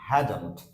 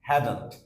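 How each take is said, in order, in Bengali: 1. শব্দ দুটো জুড়ে একটা সংক্ষিপ্ত শব্দ হয়ে যায়। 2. শব্দ দুটো জুড়ে একটা সংক্ষিপ্ত শব্দ হয়ে যায়।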